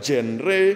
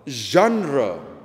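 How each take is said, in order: First: It is said as spelled, with a hard g. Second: It is said French-style, with a soft zh sound. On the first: "Saudara mau baca itu genre, mau baca genre" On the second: "cara baca yang kurang lebih tepat adalah genre. Ini bahasa Prancis asalnya"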